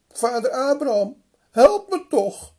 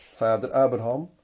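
First: Hoog en luid smeken; smekende roep. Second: Said in the usual way. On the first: Acted. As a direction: roep om hulp, wanhopig. (rijke man smeekt Abraham luid om hulp) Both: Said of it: "En hij vraagt dan".

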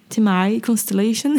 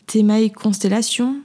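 First: Name said with an attempted English accent; self-mocked English accent. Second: Said in the usual way. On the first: Shown as a demonstration. Podcaster retrying a listener's handle, in a put-on English accent. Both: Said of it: "avec mon magnifique accent".

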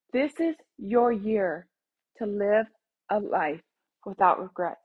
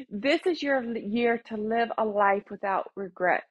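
First: "This is your year", slowly, with pauses between phrases; slow, deliberate emphasis. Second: Said in the usual way. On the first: Real, not acted. Host urging listeners to live a life without regrets, slow and deliberate. Same declaration repeated phrase by phrase.

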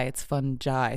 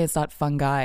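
First: "fungi" with a soft g; "fungi" ending in "jai", as in "jive"; correct pronunciation. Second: "fungi" with a hard g; "fungi" ending in a hard "guy"; wrong pronunciation. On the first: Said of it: "scientifically it's fungi". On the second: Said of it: "that whole joke about the fun guy". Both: Shown as a demonstration.

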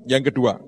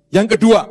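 First: "yang kedua" said lower and softer; soft repeat. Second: Emphatic announcement. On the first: Preacher repeating the second point, soft and lower. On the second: Preacher announcing the second point. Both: Real, not acted.

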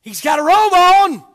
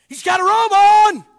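First: Loud preached line; emphatic. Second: Shouted higher, louder repeat. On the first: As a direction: declare it firmly. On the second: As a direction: ring it out to the rafters. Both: Acted. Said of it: "repeated louder".

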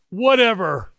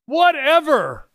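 First: A raised, offhand wave-away; dismissive. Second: High, slow, drawn-out brush-off; emphatic dismissal. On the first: Preacher to atheists in the crowd, lightly dismissive. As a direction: brush the doubt aside lightly. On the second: Preacher to atheists, repeating it high and slow. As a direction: really lean into the shrug this time. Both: Real, not acted.

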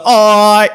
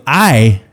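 First: High, drawn-out whiny "I"; "I" stretched into a long high "oy". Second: "I" said short and straight; producer's plain correction. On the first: Singer failing the producer's correction, "I" dragged out high. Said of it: "He's like". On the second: Producer correcting a singer's vowel, "I" said plainly. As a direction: say "I" as an ordinary short "eye". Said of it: "and the guy goes". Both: Retold or imitated.

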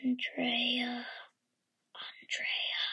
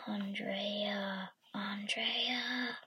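First: Eerie whispered ghost call; breathy spooky whisper of a name; haunting voice. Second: Eerie ghostly whisper; spooky whisper, drawn out; haunting voice. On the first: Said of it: "I heard an eerie voice". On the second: Ghost call repeated in dark. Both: Acted.

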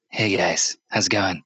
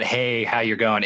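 First: Lightly voiced salesman, pitched low. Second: Said in the usual way. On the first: Store clerk greeting his own friend, salesman voice. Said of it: "he was using his salesman voice". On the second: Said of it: "It was not, it was not".

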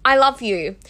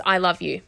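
First: Bright, earnest self-affirmation; hopeful affirmation. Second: Unbelieving affirmation. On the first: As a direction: tell yourself you mean it. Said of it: "I would say to myself". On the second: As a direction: say it without believing a word. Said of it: "I didn't believe it". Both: Retold or imitated.

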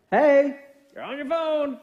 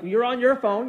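First: Slow, high singsong reminder; friendly nudge. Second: Mildly acted accusation; accusing. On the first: Acted. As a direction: tease them gently with a drawn-out, higher singsong. Instead of going. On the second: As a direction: accuse them, as if starting a spat. It blows up into a big old fight.

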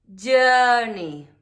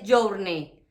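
First: "journey" with a long er vowel and silent R; "journey" with no R sound; correct British journey. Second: "journey" with a clear o and a rolled R; "journey" read as Spanish letters; wrong Spanish-style journey. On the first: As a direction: say "journey" so it rhymes with bird. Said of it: "es journey". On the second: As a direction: imitate the Spanish learner's "journey". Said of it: "No dices journey". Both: Shown as a demonstration.

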